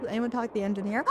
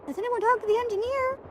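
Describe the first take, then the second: First: Said in the usual way. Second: High, dramatic mock alarm; hammed-up gasping question. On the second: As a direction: gasp and ask it like a shocked heroine. Gasps, repeats line dramatically.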